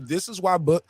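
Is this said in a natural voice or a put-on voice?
natural. It is said in the speaker's natural voice.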